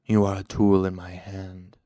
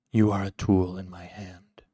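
First: Cool, firm control, louder; gentle interruption. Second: Cool, controlled insistence, louder; cool repetition. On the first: Shadowed man interrupts Cinder, gently but firmly. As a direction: cut in smoothly and with weight. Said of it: "the shadowed man interrupted gently". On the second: Shadowed master makes Cinder say it, coolly insistent. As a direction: repeat it coolly and firmly. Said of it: "the cool voice repeated". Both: A narrator's reading.

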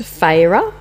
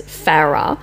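First: FARAH said FAY-ruh; long AY in the first syllable of Farah; "Farah" pronounced like fay plus ruh; Farah as Fayrah. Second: FARAH said FARR-uh; Farah with short a. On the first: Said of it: "It's supposed to be pronounced". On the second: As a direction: rhyme Farah with Sarah, short flat A as in cat. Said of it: "it's pronounced Farah". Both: Shown as a demonstration.

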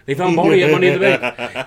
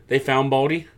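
First: Louder, higher, fast hype call; excited announcer. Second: Said in the usual way. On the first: Shown as a demonstration. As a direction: shout it like a ring announcer. Announcing Riddle found again.

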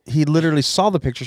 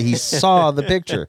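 First: Said in the usual way. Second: SAW drawn out slowly for emphasis; stress on SAW. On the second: Retold or imitated. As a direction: lean on "saw", taking the line slower. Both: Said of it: "his lawyer would be like".

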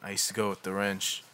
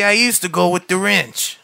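First: Low, hushed and withdrawn, barely lifting the voice; young man mumbling to his therapist about the wrench, quiet and guarded; quiet acted line. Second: Lightly put-on Boston twang on wrench; Boston accent. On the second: Young man telling his therapist about the wrench, light Boston accent. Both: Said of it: "Should we do it all in a Boston accent".

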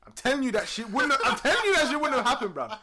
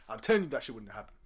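First: High, loud laughing repeat; telling friends, laughing hard; laughing insistence. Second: Said in the usual way. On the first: Real, not acted. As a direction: insist while cracking up.

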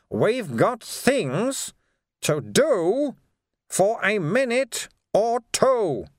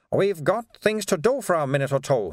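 First: Very slow and drawn out, "things" and "two" leaned on hard; pointed repeat. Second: Said in the usual way. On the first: A narrator's reading. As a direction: spell it out slowly so the other finally gets the hint. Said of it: "Sweeper repeated, making a face". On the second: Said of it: "Sweeper repeated".

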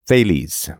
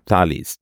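First: "Thales" said as THAY-leez; alternate pronunciation. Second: "Thales" said as TAH-leez; alternate pronunciation. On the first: Trying out a name's pronunciations for listeners, Thales as THAY-leez. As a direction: say "Thales" with a long AY first vowel. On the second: Trying out a name's pronunciations for listeners, Thales as TAH-leez. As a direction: say "Thales" with an open AH first vowel. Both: Shown as a demonstration. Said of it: "heard it pronounced a bunch of different ways".

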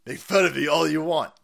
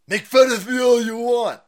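First: Said in the usual way. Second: Higher, louder put-on voice; mock influencer voice. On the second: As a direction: ham up the influencer's taunt. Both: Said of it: "quoting the influencer".

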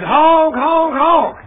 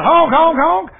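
First: High, loud honking breaking into laughter; silly clown. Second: High, loud mock honking; silly clown. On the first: Retold or imitated. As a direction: honk like a horn, laughing. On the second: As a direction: honk it out like a goofy car horn. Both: Honking at the sign.

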